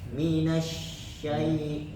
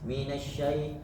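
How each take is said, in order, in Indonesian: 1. Bunyi sh itu menyebar dan dipanjangkan. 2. Bunyi sh itu dipotong pendek dan mendadak. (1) "huruf sya harus lebih tafasyi, lebih menyebar lagi" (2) "jangan langsung"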